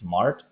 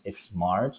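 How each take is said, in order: First: The word starts directly with the s sound. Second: An extra vowel sound comes before the s. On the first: The speaker calls it right. "no e sounds before smart before the s" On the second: The speaker calls it wrong. "you don't pronounce a smart"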